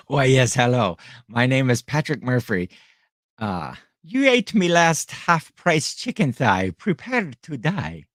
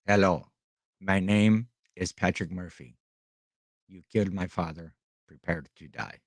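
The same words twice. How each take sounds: First: Mock Irish avenger with a lilting brogue; playful Irish accent parody. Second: Quiet, low mock Inigo Montoya line; lightly voiced movie avenger, no accent; Princess Bride quote, plain voice. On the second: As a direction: mutter the revenge line flatly, low and soft. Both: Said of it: "I should have done that in an Irish accent".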